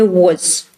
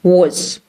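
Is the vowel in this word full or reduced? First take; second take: reduced; reduced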